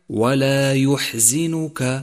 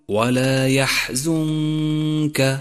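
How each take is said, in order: First: The z is followed by an 'i' vowel. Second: The z is followed by a 'u' vowel. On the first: The speaker calls it wrong. "والخطأ الشائع" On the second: The speaker calls it right. "فالصواب أن تقول"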